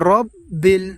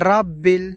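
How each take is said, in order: First: The first vowel is rounded, like 'o'. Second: The first vowel is open, like 'a'. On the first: The speaker calls it right. "কিন্তু এখানে আমাদেরকে পড়তে হবে রব্বিল" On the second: The speaker calls it wrong. "অনেকে আমরা এই জায়গায় ভুল করে থাকি, অনেকে বলে থাকি রাব্বিল"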